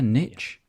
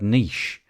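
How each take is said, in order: First: The word is said the American way. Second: The word is said the British way. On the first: "Is that how they say it elsewhere?" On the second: "the United Kingdom people say the word niche"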